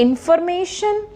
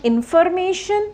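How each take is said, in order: No difference in how they are said.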